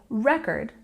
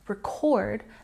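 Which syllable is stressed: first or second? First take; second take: first; second. First: The stress is on the first syllable. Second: The stress is on the second syllable. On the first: It is used as a noun. "if we put the stress on the first syllable" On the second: It is used as a verb. "with a stress on the second syllable"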